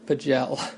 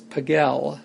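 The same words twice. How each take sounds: First: The name is not said like Pigalle. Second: The name is said like the word Pigalle. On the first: The speaker calls it wrong. "not Pagel" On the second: The speaker calls it right. "that's how you know that her name is Pagel"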